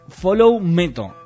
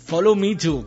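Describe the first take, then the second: First: It is read with Spanish pronunciation, like one word. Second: It is pronounced the English way, as three words. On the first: "yo lo pronuncié en castellano" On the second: "en inglés"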